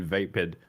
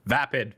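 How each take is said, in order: First: "vapid" said as VAY-pid; "vapid" rhyming its first syllable with day; mistaken long A. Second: "vapid" said as VAP-id; "vapid" with a short first vowel, not like vape; corrected short A. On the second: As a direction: say "vapid" with the A of cat. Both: Real, not acted. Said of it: "says it's pronounced vapid".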